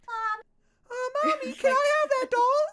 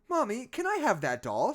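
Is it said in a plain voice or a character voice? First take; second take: character voice; plain voice. First: It is said in a put-on child's voice. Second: It is read in a plain narrating voice.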